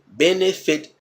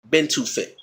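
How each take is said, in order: First: "Benefit" with a clear middle "eh"; three distinct beats with "eh" in the middle; "eh" sound. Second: "been to fit" with a clear middle "too"; three beats with "too" replacing "eh"; "to" sound. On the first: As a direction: sound out "ben-eh-fit" for comparison. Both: Shown as a demonstration. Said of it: "the eh and the to".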